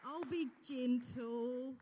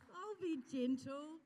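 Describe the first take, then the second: First: Slow it right down to settle a nervous guest; gentle reassurance. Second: Higher and slow, coaxing; lighter gentle promise. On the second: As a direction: lift the voice to coax her up. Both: Real, not acted. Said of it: "Carol, just come here for a minute".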